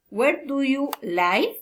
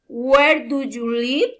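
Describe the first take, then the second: First: The voice falls at the end. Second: The voice rises at the end. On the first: "Special question foreign intonation" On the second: "Friend interest, politeness, reason intonation"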